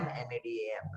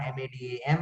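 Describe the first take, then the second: First: Quiet repeat of the spelling; soft spelled. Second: "madam, M A D A M" whispered letter by letter; spelling madam in a whisper. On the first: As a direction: say "M A D A M" softly aloud. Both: Shown as a demonstration. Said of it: "What is a palindrome".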